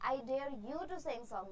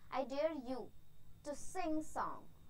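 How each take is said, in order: First: It is said straight through without a pause. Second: There is a short pause after 'you'.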